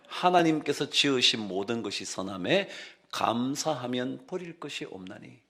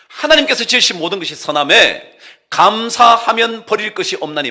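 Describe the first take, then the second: First: It is read slowly. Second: It is read at a normal speed.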